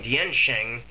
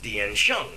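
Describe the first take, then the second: First: The second syllable is said like 'sheng'. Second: The second syllable is said like 'shong'. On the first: This is how most people say it. The speaker calls it wrong. "what everyone was calling" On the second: This is the actual pronunciation. The speaker calls it right. "is actually pronounced"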